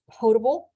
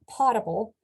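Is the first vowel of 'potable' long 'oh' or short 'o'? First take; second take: long oh; short o. First: The first vowel is a long 'oh' sound. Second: The first vowel is a short 'o' sound. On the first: The speaker calls it right. "It is pronounced potable" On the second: The speaker calls it wrong. "not potable"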